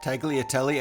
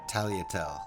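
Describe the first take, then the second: First: The G and the final E are sounded. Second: The G is silent and the final E dropped. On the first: The speaker calls it wrong. "you say the the G tagliatelle and you say the E" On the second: The speaker calls it right. "I think it's tagliatelle"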